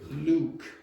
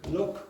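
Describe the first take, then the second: First: The vowel is long, like in 'Luke'. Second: The vowel is short, like in 'look'. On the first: The speaker calls it wrong. "I would say Luke" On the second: The speaker calls it right. "what you did is better than what I did"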